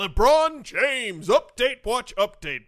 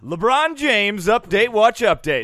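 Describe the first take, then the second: First: Louder, slower echo of the title; announcer voice. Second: Loud slow segment announcer. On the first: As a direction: boom out the segment name. Echoing segment title announcement. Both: Acted.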